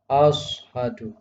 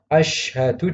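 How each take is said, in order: First: The first consonant is a heavy emphatic s. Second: The first consonant is an sh sound. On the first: The speaker calls it wrong. "huruf shin menjadi shad ... ini juga salah" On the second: The speaker calls it right. "yang seharusnya"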